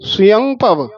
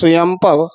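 First: The first word ends with a nasal vowel. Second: The first word ends with a full m sound. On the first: The speaker calls it right. "ਆੜੇ ਉੱਤੇ ਟਿੱਪੀ" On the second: The speaker calls it wrong. "ਸੁਯਮ ਮੰਮਾ ਨਹੀਂ ਬੋਲ ਦੇਣਾ।"

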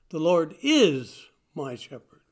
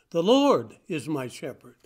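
First: The stress falls on the word 'is'. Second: The stress falls on the word 'my'. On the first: The speaker states it with firm confidence. "A statement of confidence, a statement of definite belief" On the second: The Lord belongs to the speaker personally. "Not just any Lord, but my Lord"

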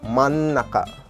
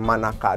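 First: The word has a doubled, held n sound. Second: The word has a single, short n sound. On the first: The speaker calls it right. "ada huruf eng-nya jangan sampai ketinggalan ya. Jadi manaka" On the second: The speaker calls it wrong. "bukan manaka doang gitu"

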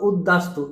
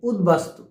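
First: The middle is a doubled d without b. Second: The middle is a d followed by b. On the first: The speaker calls it wrong. "ভুল করে উদ্বিগ্ন বা উদ্দাস্ত এভাবে উচ্চারণ করে" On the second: The speaker calls it right. "উত যোগ বাস্তু"

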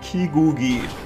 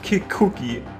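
First: The middle consonants are voiced g sounds. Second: The middle consonants are voiceless k sounds. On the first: "Kigugi oder Kikuki?" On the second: "das ist ein K, ne? Kein G, aber Kikuki klingt ein bisschen komisch"

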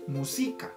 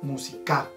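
First: The stress is on the second syllable. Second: The stress is on the third syllable. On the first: "Si cambiáramos el acento para el si, diríamos música" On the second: "si cambiáramos el acento para el ka, sonaría música"

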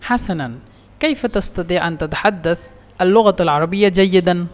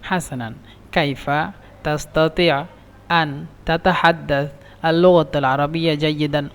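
First: The words run together without breaks between them. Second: The words are broken up with pauses between them. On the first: The listener understands it easily. The speaker calls it right. "Direct বললে" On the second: It sounds like reciting poetry and is understood late. The speaker calls it wrong. "ভেঙে ভেঙে বলেন"

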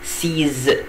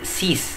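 First: The word ends with a z sound. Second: The word ends with an s sound. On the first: The speaker calls it right. "هنا الإكس هنطقها زد" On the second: The speaker calls it wrong. "مش هقول سيس"

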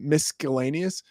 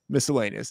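First: The 'sc' is said as sk, like disc. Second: The 'sc' is said as a plain s. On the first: "Misc, like with the C" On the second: "I think that's the way it's supposed to be"

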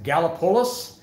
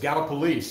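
First: The name is pronounced the way outsiders guess it. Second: The name is pronounced the way locals say it. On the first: This is a guess by people from elsewhere. The speaker calls it wrong. "everybody says, is it Gallipolis?" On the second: This is how people from the area say it. The speaker calls it right. "And no, it's Gallipolis"

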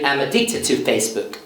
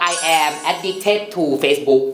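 First: 'I am' is contracted into one syllable. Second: 'I am' is said as two full words. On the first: This sounds more natural and advanced. "คุณอาจจะต้องมานั่งปรับเสียงเป็น" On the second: This is grammatically complete, basic correct English. "อันนี้เขาเรียกว่า grammar มัน สมบูรณ์"

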